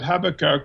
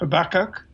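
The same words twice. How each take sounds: First: The name is said the non-American way. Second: The name is said the American way. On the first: "Jill and I talk about Habakkuk" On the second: "I think Americans talk about Habakkuk"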